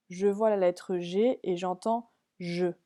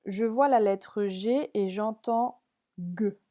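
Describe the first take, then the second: First: "je" said as a soft zh, like in girafe; soft G sound. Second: "G" said as a hard g, like in gâteau; hard G sound. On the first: Teacher reading the other column label to pupils with a soft j. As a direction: read "j'entends je" slowly, with a soft j in "je". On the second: Teacher reading the column label to pupils with a hard g. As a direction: read "j'entends G" slowly, with a hard g in "G". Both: Shown as a demonstration. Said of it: "la consigne".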